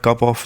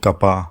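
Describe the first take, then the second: First: The word 'of' is said in full. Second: The word 'of' shrinks to a weak 'a'.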